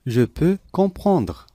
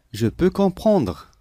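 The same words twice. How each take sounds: The two takes are said the same way.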